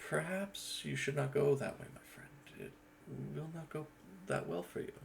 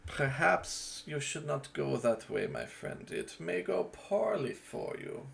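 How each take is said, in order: First: Softer, hushed warning to a friend; a quieter take on the same warning; second character take. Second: Slow, drawn-out warning to a friend; a slow, measured character warning; first character take. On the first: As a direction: drop the voice and warn him gently. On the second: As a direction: deliver the warning slowly, with weight. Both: Shown as a demonstration. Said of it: "As opposed to".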